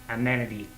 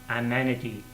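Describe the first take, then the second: The two takes are said the same way.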